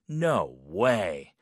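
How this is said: It sounds doubtful and disbelieving.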